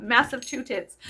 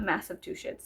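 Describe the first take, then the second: First: Massachusetts said as "massive two tits"; garbled place name, "massive two tits"; mispronunciation. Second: Massachusetts said as "massive two shits"; garbled place name, "massive two shits"; mispronunciation. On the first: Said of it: "it's not massive two tits". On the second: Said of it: "it's not massive two shits". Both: Shown as a demonstration.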